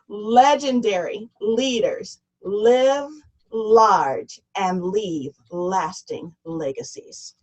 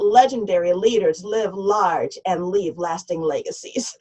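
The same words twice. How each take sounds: First: It is said slowly and deliberately. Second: It is said at a normal pace.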